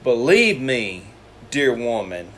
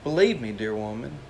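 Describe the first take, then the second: First: It is said with a commanding, authoritative tone. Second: It is said in a gentle, pleading tone.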